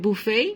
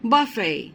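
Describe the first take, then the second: First: It is said with a North American accent. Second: It is said with a British accent. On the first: "north American ইংলিশে ওরা উচ্চারণ করে বুফে" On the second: "ব্রিটিশরা উচ্চারণ করে বাফে"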